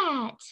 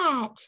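First: It is said in a tiny squeaky voice. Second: It is said in a tiny squeaky voice.

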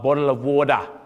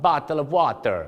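First: It is said in an Australian accent. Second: It is said in a Filipino accent. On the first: "ออสเตรเลียจะบอกว่า" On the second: "ชาวฟิลิปปินส์ครับ"

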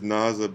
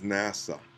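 First: It is said with a German accent. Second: It is said with a standard English accent. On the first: Someone else said it. "He says NASA, ... That's his accent" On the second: This is what was meant. "but he means NASA"

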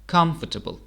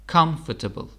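Both takes have the same delivery.

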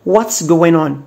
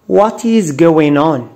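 First: 'What is' is contracted into one syllable. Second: 'What is' is said as two full words.

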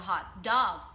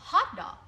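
First: The stress falls on the word dog. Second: The stress falls on the word hot. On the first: It is an adjective describing a dog. "But when I separate the words" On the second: It names a sausage sandwich. "Hot dog thì nó sẽ là nhấn vào âm 1"

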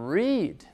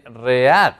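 First: The vowel is an ee sound. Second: The vowel is not an ee sound. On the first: The speaker calls it right. "se dice read. ... estas dos letras suenan a la nuestra I en español" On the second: The speaker calls it wrong. "No se dice read"

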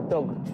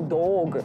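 First: The vowel in the word is kept short. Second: The vowel in the word is drawn out long. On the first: The speaker calls it right. "Там короткий звук" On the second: The speaker calls it wrong. "Не дог"

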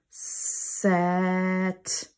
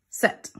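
First: The sounds are drawn out slowly and apart. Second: The sounds are run together quickly and smoothly. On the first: "let me do the sounds again"

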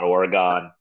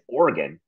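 First: Oregon is pronounced a non-local way. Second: Oregon is pronounced the local way. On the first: The speaker calls it wrong. "It is not Oregon" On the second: The speaker calls it right. "that is how you say it"

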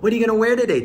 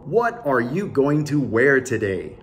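First: Going to is reduced to gonna. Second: Going to is said in full. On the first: The speaker calls it right. "ちかさんは...って言いましたよね" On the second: The speaker calls it wrong. "教育英語弁で言うと"

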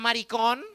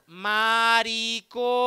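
First: The word is said smoothly in one go. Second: The word is split into separate syllables.

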